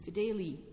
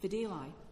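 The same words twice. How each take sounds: First: It uses the classical Latin pronunciation. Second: It uses an anglicised English-style pronunciation. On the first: "where the reformed pronunciation would be Fideli" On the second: "lawyers were saying Fideli"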